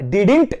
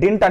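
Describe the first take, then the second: First: The word is said with two full syllables. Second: The word is squeezed into one syllable. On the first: The speaker calls it right. "But డిడింట్ అని use చేయాలి" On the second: The speaker calls it wrong. "చాలా మంది దీన్ని డింట్ అంటారు"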